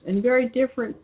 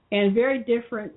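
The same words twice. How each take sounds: The two takes are said the same way.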